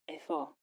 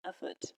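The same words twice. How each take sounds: First: Effort said as a French word, final t silent; French pronunciation. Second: Effort said as the English word, final t sounded; English pronunciation. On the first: Teacher gives learners a French example, effort with silent t. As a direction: say effort the French way, ending on an open "or". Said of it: "For example". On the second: Teacher translates the French example, effort with English final t. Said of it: "mean effort". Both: Shown as a demonstration.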